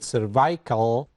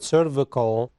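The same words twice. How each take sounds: First: It has the pronunciation used outside the United States. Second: It has the pronunciation used in the United States. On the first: This is how it is said in other regions. "Some in other areas they uh, they pronounce it cervical" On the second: This is how it is said in the United States. "in the United States we call it cervical"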